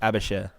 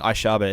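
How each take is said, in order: First: The name is pronounced like Abashir. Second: The name is pronounced like Aishaba. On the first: The speaker calls it right. "It's Abashir" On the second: The speaker calls it wrong. "I've been pronouncing it wrong this whole time. I've been saying Aishaba"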